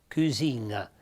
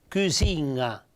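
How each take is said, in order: The two takes are said the same way.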